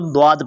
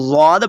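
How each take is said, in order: First: द्वाद opening with a heavy d sound; d-sound reading of द्वाद; Dwaad pronunciation. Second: ज़्वाद opening with a buzzed z sound; z-sound reading of ज़्वाद; Zwaad pronunciation. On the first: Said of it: "द्वाद पढ़ते हैं". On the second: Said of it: "बहुत सारे लोग इसको ज़्वाद पढ़ते हैं". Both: Shown as a demonstration.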